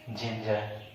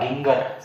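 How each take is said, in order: First: The word begins with a j sound. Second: The word begins with a hard g sound. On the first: The speaker calls it right. "इसे बोलेंगे आप जिंजर" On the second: The speaker calls it wrong. "क्या गिंगर, गिंगर का use करते हैं? नहीं"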